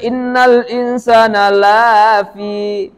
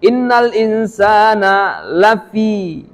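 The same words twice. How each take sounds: First: The vowel in 'la' is long. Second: The vowel in 'la' is short. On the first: Humans are not in loss. The speaker calls it wrong. "Gara-gara salah baca" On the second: Humans are truly in loss. The speaker calls it right. "La yang pendek itu artinya sungguh"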